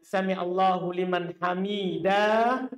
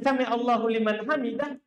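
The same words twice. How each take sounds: First: The last vowel of hamidah is drawn out long. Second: The last vowel of hamidah is kept short. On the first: Only two people who praise Him are answered. The speaker calls it wrong. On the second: Anyone at all who praises Him is heard. The speaker calls it right. "kalau kita tidak pakai alif"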